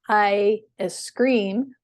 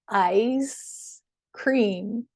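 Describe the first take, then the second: First: The s sound starts the second word. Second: The s sound ends the first word. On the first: "instead of saying I scream" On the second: "just have them move that S over to the previous syllable"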